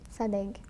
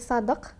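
First: The name uses a Western G sound. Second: The name uses an Arabic consonant sound. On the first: This form was adapted to be easier to pronounce. "Donc c'est devenu un G, Sadek" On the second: This is how it is said in Arabic. "ça se prononce différemment en arabe, c'est Sadek"

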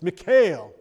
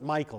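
First: The name is said with its Hebrew pronunciation. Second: The name sounds like the English name Michael. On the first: The speaker calls it right. "but it's Michal, or Michal, okay, in Hebrew" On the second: The speaker calls it wrong. "We always pronounce it Michael"

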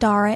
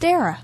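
First: The first vowel sounds like the vowel in car. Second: The first vowel sounds like the vowel in care. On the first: The speaker calls it wrong. "it's not Dara" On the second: The speaker calls it right. "pronounced like Sarah"

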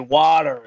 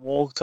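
First: It is said in an American accent. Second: It is said in a non-American accent. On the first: "I've got to say water" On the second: "instead of water"

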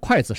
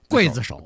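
First: The first syllable is pronounced kuai. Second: The first syllable is pronounced gui. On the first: This is the reading used in Taiwan. "在台湾呢都念筷子手" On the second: This is the reading used in mainland China. "在中国大陆呢念刽子手"

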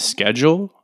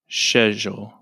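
First: It is said in the speaker's usual local way. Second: It is said the way British English says it.

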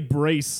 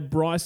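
First: The name is pronounced the French way. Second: The name is pronounced the English way. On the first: "It could also be Brice, like short for Fabrice" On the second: "that's just chef's kiss pronunciation"

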